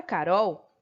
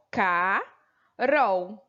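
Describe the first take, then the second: First: Said in the usual way. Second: "Carol" bem lento, partido em Ca... rol; separação silábica. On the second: Shown as a demonstration. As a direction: say "Carol" stretched, long pause before the final syllable. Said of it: "o L apareceu no final da sílaba". ("Carol" em duas sílabas alongadas, com pausa no meio)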